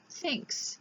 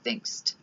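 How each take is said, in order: First: The word ends in a plain s sound. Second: The word ends with an added t sound. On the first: The speaker calls it right. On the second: The speaker calls it wrong. "not thinkst"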